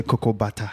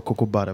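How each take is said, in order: First: Cocoa butter in an African accent, bata at the end. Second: Said in the usual way. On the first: Shown as a demonstration. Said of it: "with the African accent, say". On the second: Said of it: "You guys call cocoa butter".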